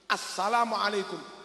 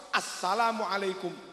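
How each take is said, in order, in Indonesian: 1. Bunyi 'al' di awal diucapkan dengan jelas. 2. Bunyi 'al' di awal diucapkan dengan jelas.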